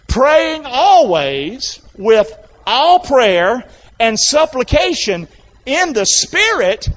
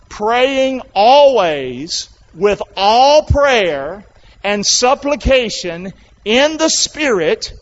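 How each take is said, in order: First: It is read in a livelier, more energetic way. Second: It is read in a flat, low-energy way. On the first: The speaker calls it right. "It's getting better" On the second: The speaker calls it wrong. "Sounds boring"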